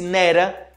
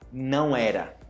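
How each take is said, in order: First: The two words are merged into one syllable cluster. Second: Both words are said separately and in full. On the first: "esse nera"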